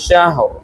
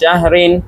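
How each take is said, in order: First: The word ends abruptly on a bare r sound. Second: The word ends with a nasal 'in' ending. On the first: The reading stops at the end of the verse. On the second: The word is read connected, not at a stop.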